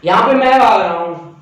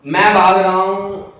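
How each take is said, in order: First: Said in the usual way. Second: "मैं" drawn out and stressed; slow stress on मैं. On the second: Shown as a demonstration. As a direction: slowly repeat and lean on "मैं". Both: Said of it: "ये देखो भाई".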